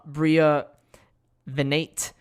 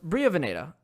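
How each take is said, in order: First: The surname ends without a final vowel sound. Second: The surname ends with an added final vowel sound. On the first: The speaker calls it wrong. "the actress whose name I'm going to mispronounce" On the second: The speaker calls it right. "she wanted the e afterwards"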